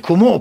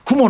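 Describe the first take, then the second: First: It has the pitch accent of the word spider. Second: It has the pitch accent of the word cloud. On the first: It sounds as if it means spider. The speaker calls it wrong. "雲はな、スパイダーやよ" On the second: It means cloud. The speaker calls it right. "雲のことを"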